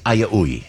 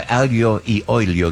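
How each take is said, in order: First: Slurred-together Southern Italian "aia ui"; Southern Italian accent. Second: Said in the usual way. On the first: Shown as a demonstration. Host showing his co-host how the family says garlic and oil, Southern Italian accent. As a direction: run aglio e olio together into "aia ui", Southern Italian style. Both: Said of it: "with our Southern Italian accent".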